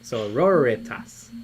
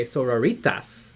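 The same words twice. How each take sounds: First: "Sororitas" slow and lower, as so-ROR-ih-tas; correct pronunciation. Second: "sororitas" as soro-REE-tas, rhyming with margaritas; wrong pronunciation. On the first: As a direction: stress the second syllable of "Sororitas", short "i" after it. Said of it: "I always say it wrong". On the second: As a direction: put a long stressed "ee" in "sororitas". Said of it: "like margaritas". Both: Shown as a demonstration.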